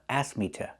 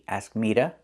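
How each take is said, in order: First: The word 'to' begins with a clear T sound. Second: The word 'to' begins with a quick D sound. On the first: "or with a T" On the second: "I can pronounce two as duh with the fast D"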